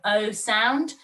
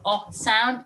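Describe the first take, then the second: First: The vowel is long, like 'oh'. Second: The vowel is short, like in 'hot'. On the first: "It's got the O sound" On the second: "not the O sound"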